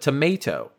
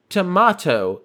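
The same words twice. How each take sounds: First: It is said in an American accent. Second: It is said in a British accent.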